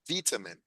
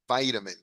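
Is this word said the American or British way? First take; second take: British; American. First: It is said with a British pronunciation. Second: It is said with an American pronunciation. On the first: "the British pronounce this vitamin" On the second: "the Americans ... we say vitamin"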